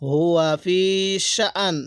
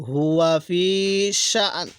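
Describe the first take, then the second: No difference in how they are said.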